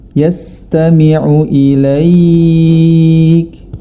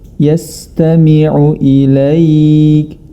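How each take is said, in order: The two takes are said the same way.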